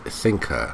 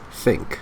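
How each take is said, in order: First: An extra uh vowel is added after k. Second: The word ends cleanly on the k sound. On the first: The speaker calls it wrong. "not thinker. be careful with adding an uh at the end of words" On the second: The speaker calls it right. "It's think"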